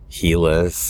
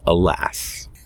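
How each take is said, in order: First: The word begins with an h sound. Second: The word begins with a vowel sound. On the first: The speaker calls it wrong. "people pronounce it halas or helas or whatever" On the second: The speaker calls it right. "but it's alas"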